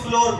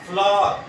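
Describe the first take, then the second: First: The vowel is an 'oh' sound. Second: The vowel is an 'ow' sound. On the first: The speaker calls it wrong. "फ्लोर बिल्कुल गलत लफ्ज है" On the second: The speaker calls it right. "जिस तरह फ्लावर होता है"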